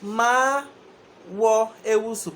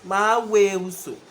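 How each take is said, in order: First: The second word stays separate as wo. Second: The second word merges into we.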